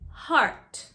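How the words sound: The R is pronounced with rounded lips. "Notice the rounded R's"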